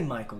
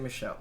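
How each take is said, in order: First: The middle consonant is a 'k' sound. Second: The middle consonant is an 'sh' sound. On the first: The speaker calls it wrong. "we don't say Michael" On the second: The speaker calls it right. "we say Michelle"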